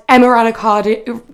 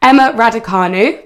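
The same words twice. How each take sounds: First: "Emma Raducanu" tripped over, the syllables jumbled; fumbled name. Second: Carefully re-say "Emma Raducanu" after fumbling it; careful retry. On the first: Host reading sports news to listeners, fumbles the name. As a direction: stumble through "Emma Raducanu" as if the tongue slips. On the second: Host correcting herself on air, careful clear retry of the name. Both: Real, not acted. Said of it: "Oh, I can't speak this morning".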